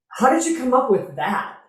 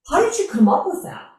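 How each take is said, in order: First: The question sounds snotty and dismissive. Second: The question sounds sincere and curious. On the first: The speaker calls it wrong. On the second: The speaker calls it right.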